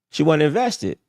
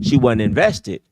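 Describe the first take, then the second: First: Higher pitched, falling on "invested"; higher repeat. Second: Slow, loud, stress on "She"; slow emphasis. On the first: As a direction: repeat it up high for effect. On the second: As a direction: hammer it out word by word. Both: Shown as a demonstration.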